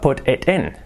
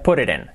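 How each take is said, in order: First: The words are said separately and carefully. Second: The words are said fast and run together. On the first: "Dicho así" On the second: "dicho rápido y dicho coloquialmente"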